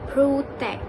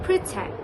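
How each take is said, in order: First: The first syllable has a full 'pro' vowel. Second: The first syllable has a reduced 'pruh' vowel. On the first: The speaker calls it wrong. "Malaysians have been pronouncing it as protect. The reason is because the spelling is P R O, which is wrong" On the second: The speaker calls it right. "like P R U H T E C T"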